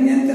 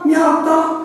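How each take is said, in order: First: The first vowel is a nasal E sound. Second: The first vowel is a widened A sound. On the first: "żona mówi" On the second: "samogłoska E plus N w barze tej lasowiackiej, mazowieckiej, czy tego wpływu mazowieckiego, daje A"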